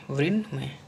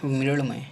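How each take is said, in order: First: मृण्मय with a plain N, "mrinmay"; wrong dental N. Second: मृण्मय with curled-tongue ṇ, "mriṇmay"; correct retroflex N. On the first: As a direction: say मृण्मय with N on the teeth. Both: Shown as a demonstration. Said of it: "और होता क्या है?".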